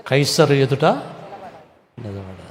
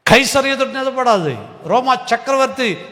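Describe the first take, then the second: First: కైసరు ఎదుట నిలబడాలి drawn out slowly; slow statement. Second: కైసరు ఎదుట నిలబడాలి cried out higher and louder; proclaimed loudly. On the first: Preacher telling the congregation about Paul, slowly. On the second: Preacher proclaiming Paul's trial to the congregation, loud and high. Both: Shown as a demonstration.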